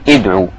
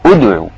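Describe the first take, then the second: First: The word begins with a vowel other than 'oo'. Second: The word begins with an 'oo' vowel. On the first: The speaker calls it wrong. "مش اقول ادعو" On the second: The speaker calls it right. "لا ادعو"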